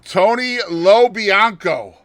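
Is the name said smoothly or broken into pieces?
smoothly. The name flows smoothly in one go. "Did you hear that pronunciation?"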